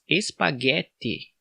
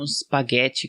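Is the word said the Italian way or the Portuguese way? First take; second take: Portuguese; Italian. First: It is said with Portuguese pronunciation. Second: It is said with Italian pronunciation. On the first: "na nossa própria língua, em português" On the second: "como se escreve originalmente em italiano"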